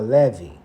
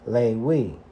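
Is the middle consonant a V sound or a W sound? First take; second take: V; W. First: The middle consonant is a V sound. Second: The middle consonant is a W sound. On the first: This sound came in from other nations. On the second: This is the original Hebrew pronunciation. "the term Levi in Hebrew means Lewi"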